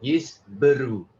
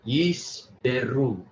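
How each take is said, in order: First: Yish Beru with a short schwa in Be; corrected sheva. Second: Yish Beru slowly, Be as beh; mistaken full vowel. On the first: Shown as a demonstration. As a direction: sound out Yish Beru, Be as buh. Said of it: "Seva pronounced E, not E". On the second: Real, not acted. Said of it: "I keep forgetting Seva pronounced E".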